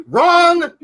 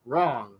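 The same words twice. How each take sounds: First: Loud, high 'wrong' like a game-show buzzer; mock buzzer wrong. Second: 'Wrong' dropped low and soft; quiet wrong. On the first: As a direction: call 'wrong' out loudly and playfully. Buzzer-style put-down of a mistake. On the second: Pretend. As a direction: mutter 'Wrong' low to close the joke. Repeat of the put-down, quieter.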